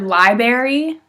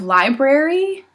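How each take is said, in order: First: One sound in the middle is dropped. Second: Every sound in the middle is pronounced. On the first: The speaker calls it wrong. "They use the word library" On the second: The speaker calls it right. "instead of library"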